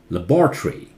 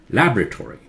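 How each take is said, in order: First: It is said with a British pronunciation. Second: It is said with an American pronunciation. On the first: "British is laboratory" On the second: "American English is different"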